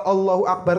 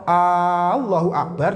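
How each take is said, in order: First: The opening vowel is kept short. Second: The opening vowel is drawn out long. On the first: It states that God is great. The speaker calls it right. "kan jelas Allah itu maha besar" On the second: It asks whether God is great. The speaker calls it wrong. "kalau hamzahnya itu dipanjangkan Jul, nantinya jadi istifham"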